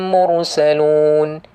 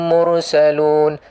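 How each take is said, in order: Both takes have the same delivery.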